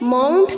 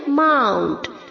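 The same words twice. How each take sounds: First: The vowel after the M sounds like 'o'. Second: The vowel after the M sounds like 'a'. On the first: The speaker calls it wrong. "इसे हमें माउंट नहीं pronounce करना है" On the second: The speaker calls it right. "M के आगे जो ओ है उसे हमें ए की तरह प्रोनाउंस करना है"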